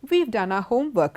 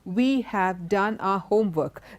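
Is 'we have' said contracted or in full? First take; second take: contracted; full. First: 'We have' is contracted to 'we've'. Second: 'We have' is said as two full words. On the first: "When you use a contraction" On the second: "the elongated sentence"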